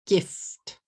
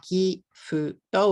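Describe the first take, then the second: First: "Gift" in one beat, closing on a released ft; English GIFT with no added vowels; one-syllable English. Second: "gifuto" in three even beats; katakana English. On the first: Teacher correcting katakana, one-syllable English. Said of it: "it's really one syllable". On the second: Teacher showing three syllables, katakana English. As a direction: GIFT split as gi-fu-to. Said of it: "if you say it in katakana". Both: Shown as a demonstration.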